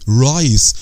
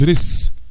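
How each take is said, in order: First: The vowel is a long ai sound. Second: The vowel is a short i sound. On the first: The speaker calls it right. "بنخليه لونج طويل" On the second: The speaker calls it wrong. "ما اقولش ريس"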